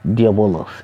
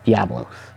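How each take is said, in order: First: The name is said with four syllables. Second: The name is said with three syllables. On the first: This is the name as used in another game series. "my pronunciation of that name is Diabolos" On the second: This is the name as used in this game. "instead of Diablos"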